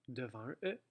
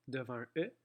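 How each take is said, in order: No difference in how they are said.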